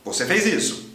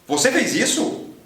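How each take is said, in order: First: The voice falls at the end. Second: The voice rises at the end. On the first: It states a fact. "Affirmative statement" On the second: It asks a question.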